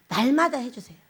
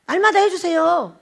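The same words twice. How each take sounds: First: Said in the usual way. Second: 날마다 pressed slowly and firmly; 날마다를 천천히 힘주어; stress on 날마다. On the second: Shown as a demonstration. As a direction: lean on 날마다, slow and emphatic.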